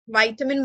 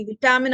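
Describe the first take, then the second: First: "വൈറ്റമിൻ" starting VY, like "vite"; long-i pronunciation. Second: "വിറ്റാമിൻ" starting VI, like "vit"; short-i pronunciation. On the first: Teacher recalling old pronunciation fights, long-i pronunciation. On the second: Teacher recalling old pronunciation fights, short-i pronunciation. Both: Shown as a demonstration. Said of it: "ഈ വ്യത്യാസങ്ങൾ".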